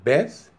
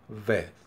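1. Começa com um som de b forte. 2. Começa com um som de v suave. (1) "con dagesh" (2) "sin el dagesh"

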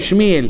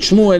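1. השם נאמר עם התנועה 'ee'. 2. השם נאמר עם התנועה 'oo'. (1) "הם אומרים שמיאל" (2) "במקום להגיד שמואל"

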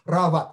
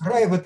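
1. В первом слоге простой звук 'a'. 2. В первом слоге звук 'ai'. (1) "конечно же" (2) "я ашкеназское произношение, ешивное произношение"

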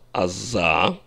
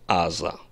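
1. Ударение на последнем слоге. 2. Ударение на первом слоге. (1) "В высоком стиле, в нормативном иврите произносится" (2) "в обычной речи говорят аза, то есть ударение на первом слоге"

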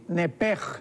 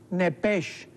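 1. La palabra termina en un sonido 'j' gutural. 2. La palabra termina en un sonido 'ch' suave.

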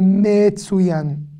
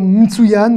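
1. Une voyelle courte suit le premier m. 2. Aucune voyelle ne suit le premier m. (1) "je suis obligé de prononcer le me" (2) "C'est difficile de dire mtsuyan"

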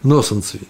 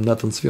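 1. Первое имя произносится со звуком s. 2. Первое имя произносится со звуком t.

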